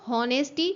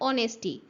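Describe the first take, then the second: First: The word begins with an h sound. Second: The word begins with a vowel sound. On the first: The speaker calls it wrong. "हम इसको हॉनेस्टी नहीं बोलते" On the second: The speaker calls it right. "हम इसको बोलते हैं ऑनेस्टी"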